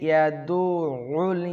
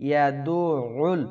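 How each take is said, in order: Both takes have the same delivery.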